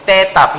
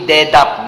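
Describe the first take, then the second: First: The word begins with an unvoiced t sound. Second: The word begins with a voiced d sound. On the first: The speaker calls it right. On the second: The speaker calls it wrong.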